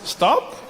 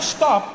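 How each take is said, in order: First: It is said as a gentle suggestion. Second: It is said as a firm command.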